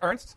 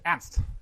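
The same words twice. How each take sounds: First: The name is said with an American pronunciation. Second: The name is said with a German pronunciation. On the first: "The American pronunciation is" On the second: "But in Germany, uh, it's Ernst"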